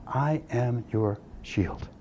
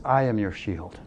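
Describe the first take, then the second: First: Very slow, hushed and weighty; half-speed solemn repeat, low volume; slow, deliberate. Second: Said in the usual way. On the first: Retold or imitated. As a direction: let each word land slowly and softly. Repeats the verse for emphasis.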